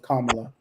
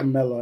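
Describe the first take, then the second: First: The name is said to sound like Kamala. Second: The name is said to sound like Camilla. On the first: The speaker calls it right. "no, it's Kamala" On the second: The speaker calls it wrong. "I always call it Camilla"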